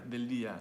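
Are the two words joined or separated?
joined. The two words run together without a break. The speaker calls it right. "like one word"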